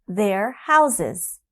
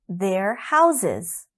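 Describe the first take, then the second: Both takes have the same delivery.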